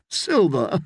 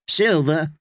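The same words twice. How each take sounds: First: Scoffing knight, pitched up; amused, incredulous echo; laughing disbelief. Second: Put-on higher girl's voice, questioning; girl asking payment. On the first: A narrator's reading. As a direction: echo SILVER as if it were absurd. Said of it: "Sir Hyle laughed". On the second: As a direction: ask for silver as a wary child. Willow asks guests for payment.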